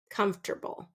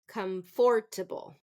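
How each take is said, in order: First: The middle part is said reduced. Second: The middle part is said in full. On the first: The speaker calls it right. "Native speakers, we reduce this" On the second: The speaker calls it wrong. "That is incorrect. We don't want to pronounce that comfort"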